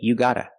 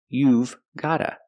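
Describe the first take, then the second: First: Gotta is said and the v is dropped. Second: Got to is reduced to gotta, v kept. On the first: "we don't pronounce the v sound" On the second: "pronunciation, gotta"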